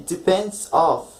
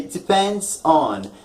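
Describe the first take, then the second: First: Slow "Depends of," leaning on "of"; wrong preposition. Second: Slow "Depends on." with "on" clear; correct preposition. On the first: Teacher quoting the common mistake, slow with stress on of. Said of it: "but you don't say". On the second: Teacher modelling the correct preposition, slow and careful. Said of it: "That's the correct, uh, preposition". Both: Shown as a demonstration.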